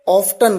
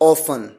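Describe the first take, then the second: First: The t in the middle is pronounced. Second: The t in the middle is silent. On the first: This is how British speakers say it. "British customers ... वो अक्सर ऑफ्टन कहते हैं" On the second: This is how American speakers say it. "American people they use ऑफन"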